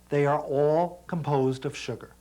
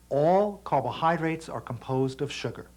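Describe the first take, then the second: First: It is said at normal speed. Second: It is said slowly.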